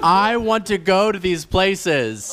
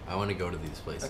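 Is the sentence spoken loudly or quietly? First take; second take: loudly; quietly. First: The sentence is spoken very loudly. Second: The sentence is spoken quietly. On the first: "Is that loud enough for you?" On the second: "no, not like that"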